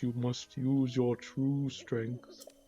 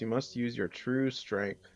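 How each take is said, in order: First: It is said in a put-on character voice. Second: It is said in the speaker's ordinary voice.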